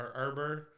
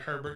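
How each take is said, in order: First: It is said the French way, final t silent. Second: It is said the English way, final t pronounced. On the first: "like the French way" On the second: "it looks like Herbert to me"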